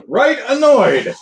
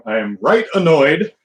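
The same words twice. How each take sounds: First: "Right annoyed" pitched much higher and slower, hammed-up British; mock British phrase. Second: Said in the usual way. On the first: Shown as a demonstration. Vlogger repeats his own phrase to the stream, hammed-up British. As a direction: ham up "Right annoyed" like a posh Brit.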